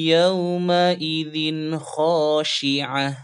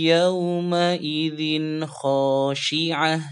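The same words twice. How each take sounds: Both takes have the same delivery.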